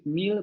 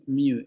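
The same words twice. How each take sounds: First: "meal" with a clear final L; "meal" ending on the L; standard meal. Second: "mew", the final L turned into U; vocalized L. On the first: Teacher demonstrating the standard "meal". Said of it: "En lugar de decir meal". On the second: Teacher showing the Australian "meal". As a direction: say "meal" as "miu". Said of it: "van a decir mew". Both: Shown as a demonstration.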